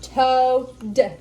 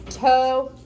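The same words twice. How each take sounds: First: "Toad" led by a hard, slow T; first sound only. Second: "Toad" with a strong T and a clear final D; stress both ends. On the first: Therapist shows Alex the first sound of "Toad", stressed. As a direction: stretch the T of "Toad" before the rest of the word. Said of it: "Just do the first sound". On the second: Therapist models "Toad" for Alex, both ends stressed. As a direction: model "Toad" for the child, hitting the first and last sound. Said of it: "really emphasize the first half of the word and then the last ending sound". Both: Shown as a demonstration.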